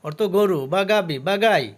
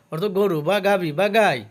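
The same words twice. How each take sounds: The two takes are said the same way.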